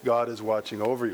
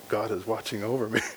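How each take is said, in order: First: It sounds warm and reassuring, like being protected. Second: It sounds uneasy, like being under surveillance.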